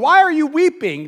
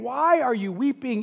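First: It sounds accusing and reproachful. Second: It sounds gentle and caring.

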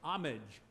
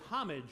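First: The word begins without any H sound. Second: The word begins with a pronounced H sound. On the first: "Our English-American version is without the H" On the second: "The British version is homage with the H pronounced"

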